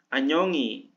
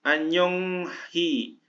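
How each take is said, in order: First: No 'h' sound comes before the final vowel. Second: A clear 'h' sound comes before the final vowel.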